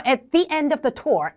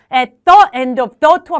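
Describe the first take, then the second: First: The before end said "thee". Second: The before end said as "thuh"; unlinked learner's "thuh end of the tour"; wrong THE vowel. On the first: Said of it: "at the end of the tour 하시는 거예요". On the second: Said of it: "말고 at the end of the tour". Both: Shown as a demonstration.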